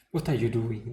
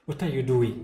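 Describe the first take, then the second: First: Louder, a hard furious shout; doctor shouting at him for defying orders; angry shout. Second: Louder, a furious shout; doctor bursting in, shouting at the caregiver; angry shout. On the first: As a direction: bark it out angrily. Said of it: "the doctor shouted at him". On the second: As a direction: yell it at him in anger. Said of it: "he shouted at Cain". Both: A narrator's reading.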